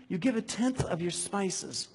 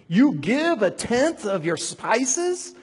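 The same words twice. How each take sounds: First: Said in the usual way. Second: Loud, higher, slow pulpit reading; preached rebuke. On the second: Acted. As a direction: thunder "You give a tenth of your spices" as scripture.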